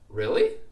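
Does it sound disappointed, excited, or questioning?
questioning. It rises in pitch, sounding questioning. The speaker is unsure and asks for confirmation. "when I had that rising intonation"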